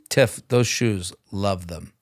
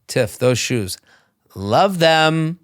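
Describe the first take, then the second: First: It is said in a lower voice. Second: It is said in a higher voice.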